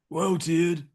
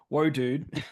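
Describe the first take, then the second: First: It is said in an imitated laid-back surfer accent. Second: It is said in the speaker's normal voice. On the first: "channeling my Keanu" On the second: "I'll save the accent"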